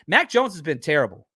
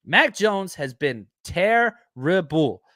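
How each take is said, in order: First: Said in the usual way. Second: Charles Barkley impression. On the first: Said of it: "Charles Barkley impersonation". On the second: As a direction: stretch every word like Barkley piling on. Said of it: "my, uh, Charles Barkley impersonation".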